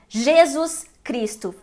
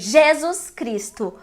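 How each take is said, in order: First: The stresses fall on neighbouring syllables. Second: The first stress moves away from the second. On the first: "we have a stress clash" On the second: "So we say Jesus Cristo"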